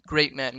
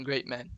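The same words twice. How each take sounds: First: Said in the usual way. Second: Great man dropped much softer, falling; softer echo. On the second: Acted. Teacher echoing praise of the soldier, soft aside. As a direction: repeat it under your breath like an afterthought.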